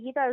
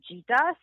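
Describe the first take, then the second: First: The name starts with a hard g sound. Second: The name starts with a soft j sound. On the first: This is how the host says it. "the fact that you're even calling me Gita" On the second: This is how people in French and Chinese-speaking places say it. "the g sound of Gita is pronounced je. So everybody calls me Gita"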